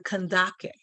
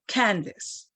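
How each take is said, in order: First: The word ends with a 'kay' sound. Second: The word ends with an 's' sound. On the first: The speaker calls it right. "that is the Kandake" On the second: The speaker calls it wrong. "as mispronounced as Candace"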